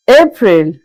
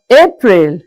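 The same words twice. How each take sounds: The two takes are said the same way.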